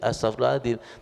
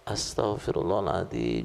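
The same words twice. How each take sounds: First: It is recited mechanically without feeling. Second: It is said sincerely with heartfelt feeling.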